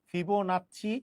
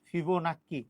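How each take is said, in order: First: The word is said with a ch sound. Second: The word is said with a k sound. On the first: "এই জিনিসটাকে বলে হচ্ছে ফিবোনাচ্চি" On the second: "অনেকে ফিবোনাক্কি"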